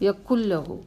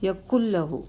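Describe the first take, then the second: The two takes are said the same way.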